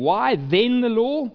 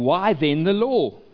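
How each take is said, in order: First: The word 'then' carries strong emphasis. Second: The word 'then' carries no special emphasis.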